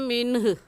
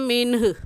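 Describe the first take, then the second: No difference in how they are said.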